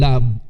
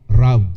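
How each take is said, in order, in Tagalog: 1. Binibigkas ito na may karaniwang aksent na Ingles. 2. Binibigkas ito na may aksent na Hapon, parang tunog ng "rob".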